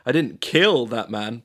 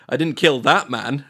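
First: The stress is on "kill". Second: The stress is on "that".

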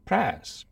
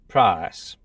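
First: The vowel sounds close to the 'e' in press. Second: The vowel is a narrower, multicultural London diphthong. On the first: "or even press" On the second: "pronounced price"

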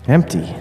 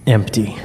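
First: It is said in a plain voice. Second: It is said with a hiss.

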